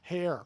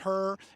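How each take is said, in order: First: The name rhymes with care. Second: The name rhymes with fur. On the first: "I like Sarah's pronunciation of it" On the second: "some families pronounce it Her"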